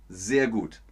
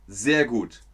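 The two takes are said the same way.

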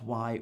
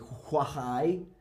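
First: No H sound is heard before the W. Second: An H sound is breathed before the W. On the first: The speaker calls it right. "No, it's what, why" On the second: The speaker calls it wrong. "We don't say why"

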